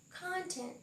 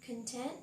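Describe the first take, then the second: First: "content" as a noun, CON-tent, first syllable stressed; "content" stressed up front. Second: "Content" as an adjective, con-TENT, second syllable stressed; "Content" stressed on the end. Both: Shown as a demonstration. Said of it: "Let's practice the pronunciation".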